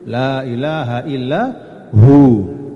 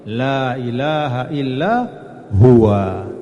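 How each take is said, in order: First: The last word is cut short to one syllable. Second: The last word ends with its full final vowel.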